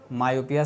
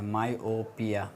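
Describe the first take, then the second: First: Said in the usual way. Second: myopia drawn out very slowly, syllable by syllable, softer; myopia stretched out slowly and quietly, like dictating a new term; slow spelled-out term. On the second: Shown as a demonstration. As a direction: say myopia slowly so students catch each syllable. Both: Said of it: "myopia शायद बोलते हैं".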